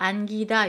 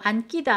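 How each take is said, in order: First: The 기 syllable starts with a plain consonant. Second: The 기 syllable starts with a tense consonant. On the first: The speaker calls it right. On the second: The speaker calls it wrong.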